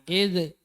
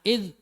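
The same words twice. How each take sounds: First: The final consonant is released with a bounce. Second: The final consonant is held without release. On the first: The speaker calls it wrong. "jangan dipantulkan ya, jangan id" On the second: The speaker calls it right. "tapi ditahan id ya"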